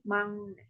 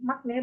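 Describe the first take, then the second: First: The first syllable ends with an ng sound. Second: The first syllable ends with a k sound. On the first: The speaker calls it right. "tapi mangne seperti itu" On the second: The speaker calls it wrong. "bukan makne bacanya"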